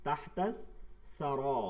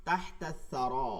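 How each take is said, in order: First: তাহতা and সারা said apart with a clear pause between; split reading. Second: তাহতা সারা run together as one phrase, slowly; joined reading. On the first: Teacher splits the phrase to show the separate reading. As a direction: break তাহতা ... সারা into two words. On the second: Teacher reads the linked form first, slow and even. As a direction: read তাহতা সারা linked, without a break. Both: Shown as a demonstration. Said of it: "এটা যখন আপনি আলাদা পড়ব".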